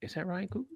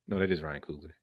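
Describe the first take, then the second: First: Doubtful question. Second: Said in the usual way. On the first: Real, not acted.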